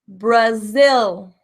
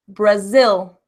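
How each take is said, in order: First: The final L is long and exaggerated. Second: The final L is light and natural. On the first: "exaggerating to build that muscle" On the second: "Now, naturally"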